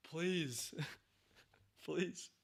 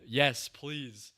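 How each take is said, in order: First: Higher, softer, put-on begging please, laughing at the end; higher mock plea; mock pleading. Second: Said in the usual way. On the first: Real, not acted. Begging for scary show.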